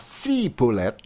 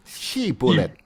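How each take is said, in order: First: The word begins with an 's' sound. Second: The word begins with a 'sh' sound. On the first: The speaker calls it wrong. "tidak dapat mengucapkan dengan tepat" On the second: The speaker calls it right. "coba katakan dulu"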